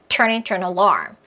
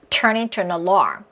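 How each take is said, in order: First: Only turn and alarm are strongly stressed. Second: Only turn and alarm are strongly stressed.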